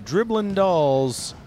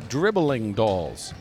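First: The word ends in -in, dropping the g. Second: The word ends in a full -ing sound. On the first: The speaker calls it wrong. "Am I saying it right?" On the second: The speaker calls it right. "you gotta do them the service by including the full gerund"

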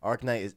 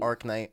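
The two takes are said the same way.

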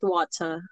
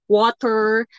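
First: It is said with a British accent. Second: It is said with an American accent.

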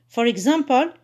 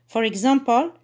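Both takes have the same delivery.

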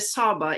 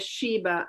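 First: The name begins with an 's' sound. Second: The name begins with an 'sh' sound.

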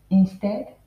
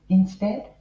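Both takes have the same delivery.

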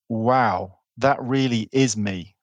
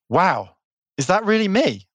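First: It sounds calm and certain. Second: It sounds surprised and disbelieving.

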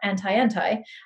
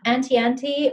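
First: The name is said with an American pronunciation. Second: The name is said with a British pronunciation. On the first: "American pronunciation"

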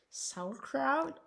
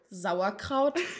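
First: It is said with a foreign accent. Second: It is said with a German accent.

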